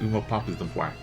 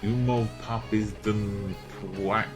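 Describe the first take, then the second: First: The name is said quickly and run together. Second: The name is said at a normal, careful pace. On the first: "if I'm quick" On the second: "I kind of pronounce it like"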